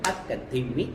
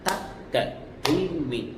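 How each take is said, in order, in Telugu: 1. అక్షరాలను వేగంగా పలుకుతారు, ఒక దెబ్బకు నాలుగు. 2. అక్షరాలను రెట్టింపు వేగంతో పలుకుతారు, ఒక దెబ్బకు రెండు. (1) "ఒక దెబ్బకి నాలుగు అక్షరాలు పలకాలి" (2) "ఇది రెండో కాలం"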